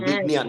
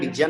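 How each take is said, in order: First: The middle cluster has a nasal n sound. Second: The middle cluster has a g sound. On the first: The speaker calls it right. "বিজ্ঞান এভাবে বলতে হবে" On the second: The speaker calls it wrong. "বিজ্ঞান বলা যাবে না"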